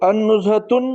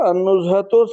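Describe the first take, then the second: First: The word ends with an added n sound. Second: The word ends on a vowel without n. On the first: The speaker calls it wrong. "गलत हो जाता" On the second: The speaker calls it right. "सही है"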